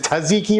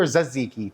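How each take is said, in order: First: "tzatziki" begun with a T and a short uh, tuh-ZEE-kee; trying a pronunciation. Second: "tzatziki" begun with a buzzed Z, zat-ZEE-kee; alternative pronunciation. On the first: Cook asking viewers how to say it, "tzatziki" as tuh-ZEE-kee. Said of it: "that's not how it's pronounced". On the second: Cook offering viewers another option, "tzatziki" as za-ZEE-kee. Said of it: "Is it tzatziki or tzatziki". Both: Shown as a demonstration.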